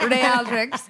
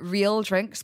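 First: Real is said the Spanish way, like Madrid's club. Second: Real is said the ordinary English way. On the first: "I pronounce them as Real drinks. Like Real Madrid" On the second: "They are real drinks"

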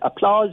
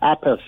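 First: The name ends like the word applause. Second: The name ends like the word apples. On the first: The speaker calls it wrong. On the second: The speaker calls it right.

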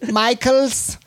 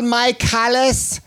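First: The surname is said short, like Michaels. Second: Every letter of the surname is sounded out. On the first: "I know that's how it's pronounced" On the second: "it is up to me to pronounce every possible letter in every possible name"

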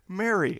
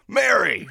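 First: It is said in a solemn, serious way. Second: It is said like a casual, cheery greeting.

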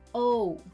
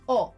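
First: The vowel is rounded and glides at the end. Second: The vowel stays pure and steady throughout. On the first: The speaker calls it wrong. "avoid that English touch of yours and refrain from rounding it with your lips or adding that extra sound at the end" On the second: The speaker calls it right. "Say O instead"

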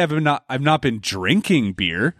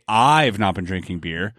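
First: The stress falls on the word 'drinking'. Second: The stress falls on the word 'I've'. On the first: The beer was taken some other way than drinking. "this automatically implies you've been eating beer" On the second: Someone else has been drinking beer. "that you're suggesting someone else has"

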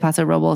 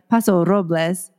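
First: The R in Robles is not rolled. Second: The R in Robles is rolled. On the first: This is how visitors say the name. "people say Paso Robles and it's totally fine" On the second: This is how locals say the name. "it's really like Paso Robles"

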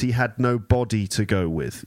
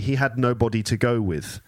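First: The stress is on the second syllable, 'bo'. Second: The stress is on the first syllable, 'no'. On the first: He had no physical body. "But here you have to say because he had no body to go with. You see the emphasis?" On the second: He had no person to go with. "Normally you'd say he had nobody to go with"

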